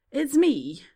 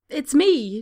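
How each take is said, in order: First: Repeated blurt. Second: Much higher and louder outburst; blurted cry. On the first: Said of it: "Draco repeats". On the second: Draco crying out to hide the clicking beetle. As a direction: blurt it out in panic. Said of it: "Draco cries". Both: A narrator's reading.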